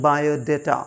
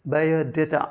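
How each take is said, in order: Both takes have the same delivery.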